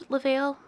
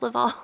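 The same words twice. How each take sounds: First: Laval said "luh-VAIL", second syllable rhyming with "pale"; alternative pronunciation. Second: Laval said "luh-VAWL", second syllable rhyming with "hall"; alternative pronunciation. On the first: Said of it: "maybe it's Laval". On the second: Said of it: "I think it's Laval". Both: Real, not acted.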